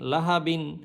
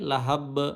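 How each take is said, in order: First: The word ends with a 'bin' sound. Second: The word ends with a bare 'b' sound. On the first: The reading continues without stopping. "বা দুই জের বিন" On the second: The reader stops on this word. "থামলে লাহাব"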